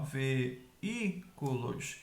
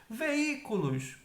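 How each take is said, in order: First: "veículos" very slowly as ve... í... cu... los; teacher spacing out "veículos", pausing between syllables; split into syllables. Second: Said in the usual way. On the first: Shown as a demonstration. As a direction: break "veículos" into separate syllables. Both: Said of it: "em sílabas separadas".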